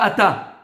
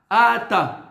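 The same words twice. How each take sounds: First: The stress is on the last syllable. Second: The stress is on the first syllable. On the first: The speaker calls it wrong. "Pas ata" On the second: The speaker calls it right. "il faut appuyer sur le alef"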